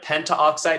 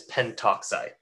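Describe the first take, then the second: First: An extra 'a' vowel comes before 'oxide'. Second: No vowel comes between 'pent' and 'oxide'. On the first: The speaker calls it wrong. "instead of pentoxide" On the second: The speaker calls it right. "it's pentoxide"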